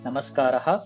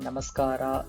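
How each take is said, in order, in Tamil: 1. மூச்சொலி போன்ற h எதிரொலியுடன் முடிகிறது. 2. திறந்த a உயிரெழுத்தில் முடிகிறது. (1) "கரெக்ட்டா அந்த விசர்கா வரைக்கும் ப்ரொனவுன்ஸ் பண்ணணும்" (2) "நமஸ்கார் இல்ல நமஸ்காரா அது மாரி தேவையில்ல"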